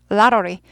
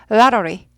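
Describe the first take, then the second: No difference in how they are said.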